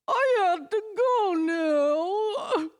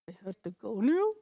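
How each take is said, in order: First: It sounds sad and dramatic. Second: It sounds curious and questioning.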